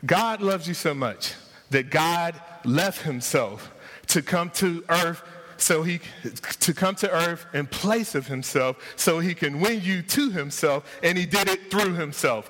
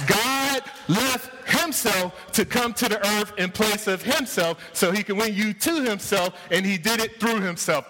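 First: Said in the usual way. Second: Higher, slower-landing restatement, leaning on "God" and "through"; emphatic repeat. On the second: Shown as a demonstration. Pastor repeating it for the slow people, raised and emphatic. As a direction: hammer the point home a second time, pitched up. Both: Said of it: "I'm gonna say that again for the slow people".

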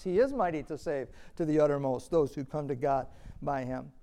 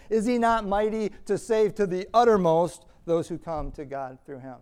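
First: Calm reading that leans on is in He is mighty; stress on is. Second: Loud, higher challenge peaking on uttermost; rhetorical preaching question. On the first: Shown as a demonstration. Preacher restating the verse as a promise, stressing is. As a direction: state it as a settled promise, weight on is. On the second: Real, not acted. Preacher challenging the congregation, loud rhetorical question. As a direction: throw the question out to the room. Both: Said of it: "That's literally what the verse says".

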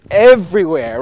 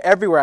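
First: EVERYWHERE blasted loud, first syllable stretched; stress on EVERYWHERE. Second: Said in the usual way. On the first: Acted. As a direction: punch EVERYWHERE big and loud, to mean absolutely all over. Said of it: "but it was everywhere". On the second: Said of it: "I think, like, all here".

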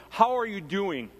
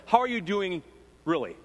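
First: Said in the usual way. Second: A searching "How are you doing, really?" with weight on "really?"; stress on really. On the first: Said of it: "When they ask me the question". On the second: Shown as a demonstration. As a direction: lean into "really?" as a probing follow-up. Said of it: "it's kinda like this".

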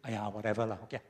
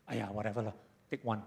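First: Lazy Singlish shrug. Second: Softer, resigned Singlish give-in. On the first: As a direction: brush it off in Singlish. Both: Retold or imitated. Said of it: "Do you say".

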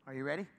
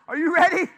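First: Said in the usual way. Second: High, booming call to the crowd; much louder, higher rallying cry; rousing shout. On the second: Real, not acted. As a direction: fire up the room with a shout. Rousing the congregation after weak response.

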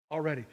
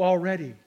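First: Already repeated much softer and lower; soft echo. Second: Said in the usual way. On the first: Shown as a demonstration. Preacher echoing his word Already, softly. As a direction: let Already fall away softly. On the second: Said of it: "to "already".

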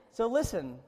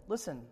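First: Louder listen. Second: Said in the usual way. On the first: Shown as a demonstration.

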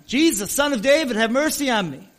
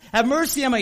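First: Loud, higher pleading cry for help; desperate yell. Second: Loud, higher repeated plea; desperate yell. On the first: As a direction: call out to Jesus over the crowd, begging. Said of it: "this blind guy just starts yelling". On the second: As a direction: shout it again, even more urgent. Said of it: "he's screaming at the top of his lungs". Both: Retold or imitated.

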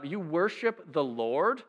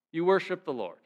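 First: "You worship the Lord?" slow, with a rising tune on "worship"; drawn out in disbelief, rising at the end; incredulous question. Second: "You worship the Lord." with a falling tune on "worship"; flat dry statement. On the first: Preacher doubting Jonah's claim, incredulous rising question. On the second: Preacher echoing Jonah's claim, dry falling statement. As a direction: set it down flatly, ironic. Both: Shown as a demonstration. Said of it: "Again, almost laugh".

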